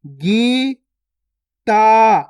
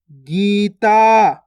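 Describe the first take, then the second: First: Gita split as gee, pause, taa; syllable by syllable. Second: Gita joined, both vowels long; joined, stretched word. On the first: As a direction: slowly sound out Gita in two held syllables. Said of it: "direct मात्रा का उच्चारण करके पढ़ेंगे". (गीता को तोड़कर, गी... ता) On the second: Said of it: "खींच के पढ़ना है". (गीता मिलाकर, खींचकर) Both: Shown as a demonstration.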